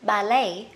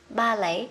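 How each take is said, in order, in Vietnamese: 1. Trọng âm nằm ở âm tiết thứ hai. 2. Trọng âm nằm ở âm tiết thứ nhất. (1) "Còn người Mỹ sẽ đọc là ballet" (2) "với Anh sẽ đọc là ballet"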